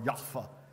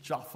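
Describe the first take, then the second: First: The name is said with the local pronunciation. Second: The name is said with an English pronunciation.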